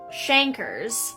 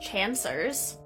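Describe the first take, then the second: First: The middle consonant sounds like a k. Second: The middle consonant sounds like an s. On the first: The speaker calls it right. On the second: The speaker calls it wrong.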